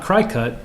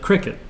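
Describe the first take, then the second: First: The first syllable sounds like 'cry'. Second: The first syllable does not sound like 'cry'. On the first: The speaker calls it wrong. "not Cricut" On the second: The speaker calls it right. "the proper pronunciation of"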